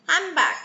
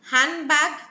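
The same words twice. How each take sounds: First: The middle turns into a nasal 'm' sound. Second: The middle is said with a clear 'nd' sound.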